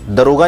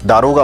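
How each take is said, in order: First: The first vowel is short. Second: The first vowel is long. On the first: The speaker calls it wrong. "दरोगा नहीं होता" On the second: The speaker calls it right. "दारोगा होता है"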